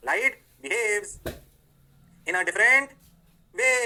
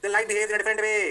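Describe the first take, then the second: First: Pauses split "light behaves", "in a different", "way"; teacher dictating slowly, each chunk apart; slow, word by word. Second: Said in the usual way. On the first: Shown as a demonstration. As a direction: spell it out with long breaks between the chunks.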